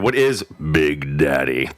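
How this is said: It is said in a weighty, dramatic voice. The speaker calls it right. "You have to use the gravitas in it"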